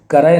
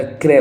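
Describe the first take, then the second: First: क्रय split open as "ka-raay"; extra vowel after the k in क्रय; wrong pronunciation shown. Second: क्रय as one beat, "kray"; no vowel between k and r in क्रय; correct pronunciation shown. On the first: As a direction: say क्रय as two beats, "ka-rai". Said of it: "क्रय नहीं होता". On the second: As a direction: run k and r together in क्रय. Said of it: "क्रय होता है". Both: Shown as a demonstration.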